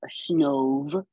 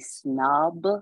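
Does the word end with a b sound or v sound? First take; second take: v sound; b sound. First: The word ends with a v sound. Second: The word ends with a b sound. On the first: The speaker calls it right. "Snove, S-N-O-V" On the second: The speaker calls it wrong. "I almost wanna say snob"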